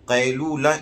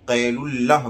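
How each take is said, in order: First: The ending is a long 'oo' then a single 'la'. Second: The ending sounds like 'ullah' with a double l. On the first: The speaker calls it right. "कैलूला इसका सही pronunciation है।" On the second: The speaker calls it wrong. "अक्सर लोग इसको कैलुल्लाह बोलते हैं, जैसे अब्दुल्ला बोला जाता है, ये गलत है।"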